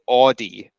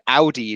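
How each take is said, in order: First: It is said the usual American way. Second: It is said the British way, like German. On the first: This is the usual form in North America. "in America, uh, including Canada, uh, people say, people tend to say Audi" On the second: This is the usual form in the UK and Germany. "in the U K, people say Audi like you say in German"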